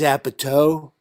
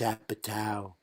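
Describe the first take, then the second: First: The last syllable rhymes with toe. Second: The last syllable rhymes with cow. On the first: The speaker calls it wrong. "like a tow truck" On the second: The speaker calls it right. "like a cow"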